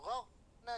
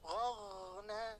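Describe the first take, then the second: First: The gh sound is cut off with a break. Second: The gh sound flows smoothly into the next sound. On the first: The speaker calls it wrong. "jangan ghorna jangan putus" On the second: The speaker calls it right. "jangan putus"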